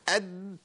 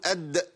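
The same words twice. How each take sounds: First: The final d is held closed without release. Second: The final d is released with a bounce. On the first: The speaker calls it wrong. "ما ينفعش اد" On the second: The speaker calls it right. "لازم اقول اد عشان الصوت ايه؟ يتفك"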